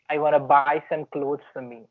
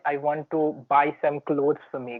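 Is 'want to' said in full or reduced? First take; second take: reduced; full. First: Want and to blend into one word, wanna. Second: The words want and to are said separately.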